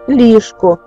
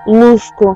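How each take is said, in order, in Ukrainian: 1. Перший голосний звучить як i. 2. Перший голосний звучить як u. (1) "А тепер" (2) "як говорили"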